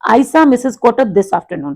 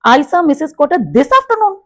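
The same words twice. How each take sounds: First: The voice falls at the end. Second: The voice rises at the end. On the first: It states that the speaker saw her today. "That means कि मैंने उनको आज देखा।" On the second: It asks whether the speaker was the one who saw her. "मतलब this afternoon थोड़ा सा वो high हो गया।"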